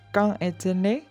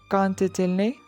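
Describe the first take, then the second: First: No t sound links quand to est. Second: A t sound links quand to est. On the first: The speaker calls it right. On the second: The speaker calls it wrong.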